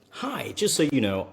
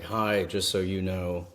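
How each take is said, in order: First: The voice is high and lively. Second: The voice is low and flat. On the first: It comes off as friendly and safe. The speaker calls it right. "Big difference" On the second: It comes off as creepy to a stranger. The speaker calls it wrong. "I'm not going to be like"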